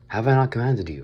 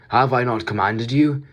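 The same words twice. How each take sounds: First: It is read in the speaker's natural voice. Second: It is said in a comic put-on voice.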